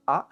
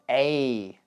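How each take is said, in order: First: It is said with a short, reduced vowel. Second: It is said with a full, stressed vowel. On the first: "which is the weak form, the one that is usually used" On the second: "the strong form"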